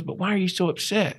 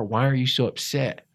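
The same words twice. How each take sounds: First: High, quick puzzled question; Doug. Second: Said in the usual way. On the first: Retold or imitated. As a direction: imitate an unfazed mentor, higher and quicker. Retold mentor repeats his question.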